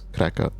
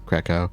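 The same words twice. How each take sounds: First: It is said with a Polish-like native pronunciation. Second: It is said with an American English pronunciation. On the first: The speaker calls it right. "the actual name is Krakow" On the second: The speaker calls it wrong. "American English would say Krakow"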